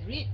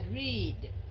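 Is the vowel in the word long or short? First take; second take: short; long. First: The vowel is short and clipped. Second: The vowel is drawn out long. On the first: The speaker calls it wrong. "không phải là read" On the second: The speaker calls it right. "Mình sẽ kéo dài ... mà là read"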